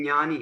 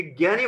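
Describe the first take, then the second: First: ज्ञानी said as nyani; correct palatal-nasal pronunciation. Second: ज्ञानी said as gyani; common g-y pronunciation. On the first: Teacher giving pupils the true pronunciation, ज्ञानी as nyani. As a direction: start ज्ञानी with ny, no g. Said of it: "इसका उच्चारण है". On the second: Teacher quoting common usage to pupils, ज्ञानी said as gyani. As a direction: start ज्ञानी with a hard g and y. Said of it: "ये ज्ञानी बोलते हैं इसको". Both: Shown as a demonstration.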